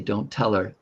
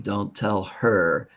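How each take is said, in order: First: The H sound in 'her' is dropped. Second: The H sound in 'her' is clearly pronounced. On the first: This is how many people actually speak. "that's how many people speak" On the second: This is the technically correct form. "if you want to be correct and say it correctly"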